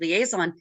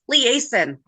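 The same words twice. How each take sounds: First: It sounds like the ordinary English word liaison. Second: It sounds like Liz and Jason blended together. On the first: The speaker calls it wrong. "I've been pronouncing it liaison because that's close to the spelling of the word liaison" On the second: The speaker calls it right. "It's liaison. ... there's not a second I ... because Liz and Jason"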